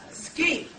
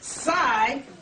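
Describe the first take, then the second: First: The syllable begins with an sk sound. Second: The syllable begins with a plain s sound. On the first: The speaker calls it right. "in Latin, it would be pronounced ski" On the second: The speaker calls it wrong. "this would not be pronounced psi"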